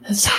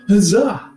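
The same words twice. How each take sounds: First: It is said quietly, as a stage whisper. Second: It is said at normal loudness.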